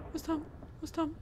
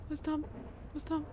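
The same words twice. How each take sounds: The two takes are said the same way.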